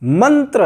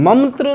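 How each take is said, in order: First: "मंत्र" said slowly as man-tra; a clear n before tra in "मंत्र"; dental n. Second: "मंत्र" said high as mam-tra; mispronunciation with m. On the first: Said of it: "हम मंत्र बोलते हैं". ("मंत्र" में साफ़ न) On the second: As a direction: close the lips for an m in "मंत्र". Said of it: "मंत्र नहीं बोलते". ("मंत्र" में न की जगह म) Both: Shown as a demonstration.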